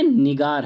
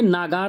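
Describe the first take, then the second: First: The first vowel is a short 'i'. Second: The first vowel is a long 'aa'. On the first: The speaker calls it right. "बल्कि निगार है" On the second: The speaker calls it wrong. "ये नागार नहीं है"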